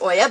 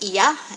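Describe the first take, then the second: First: The name starts with an 'oh' sound. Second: The name starts with an 'ee' sound. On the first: This is the common but incorrect way to say it. The speaker calls it wrong. "we pronounce it Oya" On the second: This is the proper way to say it. The speaker calls it right. "it's supposed to be pronounced Iya"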